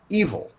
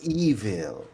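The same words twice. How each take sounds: First: The word is pronounced in an ordinary way. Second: The word is pronounced in a prim, affected way. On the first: "she didn't ever say" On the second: "She said evil, evil. ... that's the spinster dialect"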